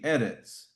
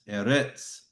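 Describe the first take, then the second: First: The stress is on the first syllable. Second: The stress is on the second syllable. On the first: The speaker calls it right. "But since it does, it's going to be" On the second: The speaker calls it wrong. "You hear the I go up on the Retz"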